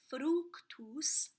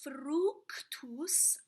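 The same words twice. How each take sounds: First: The r is a single flap. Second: The r is a rolled trill. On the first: "you could just flip it" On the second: "I rolled my R"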